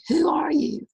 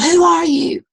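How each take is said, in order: First: Put-on distant echo of the boy's call. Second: High, loud call into the distance; boy yelling into the hills; retold yell. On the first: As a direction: let it come back fainter. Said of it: "And he heard". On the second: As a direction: shout it out across the canyon. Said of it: "And he yelled".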